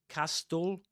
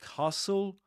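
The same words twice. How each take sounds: First: The t sound in the middle is pronounced. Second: The t sound in the middle is silent. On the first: The speaker calls it wrong. "you don't say castle" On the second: The speaker calls it right. "You say castle. ... you don't pronounce the t there"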